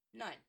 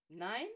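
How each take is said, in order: First: Short falling NEIN; curt refusal. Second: NEIN rising sharply, louder, as a question; incredulous echo. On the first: Snape refusing Severus his Duelling Club place, curt refusal. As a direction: say NEIN as a final, closed answer. Flat refusal answering a request. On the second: Severus questioning Snape's refusal, incredulous echo. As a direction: throw NEIN back in disbelief. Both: A narrator's reading.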